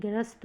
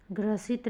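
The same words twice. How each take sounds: First: ग्रस्त as "grast", one beat; corrected word form. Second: ग्रसित as "gra-sit", two beats; wrong word form. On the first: Teacher giving students the correction, ग्रस्त as "grast". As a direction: join s and t in ग्रस्त. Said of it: "ग्रस्त होगा". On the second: Teacher showing students the error, ग्रसित as "gra-sit". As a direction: sound an i between s and t in ग्रसित. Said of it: "ग्रसित नहीं". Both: Shown as a demonstration.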